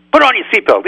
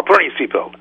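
First: Much higher, loud "put on your seatbelt"; a rabbi hypes the audience before quoting the Ramban, high and loud; excited warning. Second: Said in the usual way. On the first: Repeated with more excitement.

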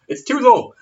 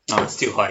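First: Loud, high yelped complaint; pitched-up comic shout; high mock outcry. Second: Said in the usual way. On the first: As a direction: cry it out high in mock protest. Joke shout, then contrasted reply.

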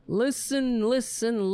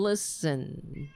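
First: Town crier. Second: Said in the usual way. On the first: Acted.

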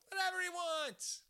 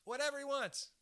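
First: Higher, stretched mock echo of "Whatever he wants"; mock high put-on voice. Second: Said in the usual way. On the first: Host mimics the jungle guy he'd let read to him, high playful voice.

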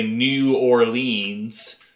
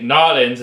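First: "New Orleans" said in full, ending in "leens"; spelling pronunciation. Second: "Nolans" squashed into two syllables; mock-Cajun pronunciation. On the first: Explaining outsiders' mistakes, over-spelled "New Orleans". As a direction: overcommit to every syllable of "New Orleans". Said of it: "overcommit to the way it's spelled". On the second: Explaining outsiders' mistakes, slurred Cajun-style "Nolans". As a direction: drop the "New Or" into a slurred "Nolans". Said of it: "they think Nolans is how". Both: Shown as a demonstration.

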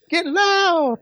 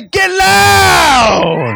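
First: High, dainty mock cheer; trying to be pretty. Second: Full-force, long, ugly holler; loud and ugly. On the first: Preacher mocking congregants being pretty about it, high and dainty. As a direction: imitate a prettified, polite shout. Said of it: "trying to be pretty in it". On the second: Shown as a demonstration. Preacher showing how to get loud, ugly drawn-out shout. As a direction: let it rip, high and very loud. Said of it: "you gotta get ugly".

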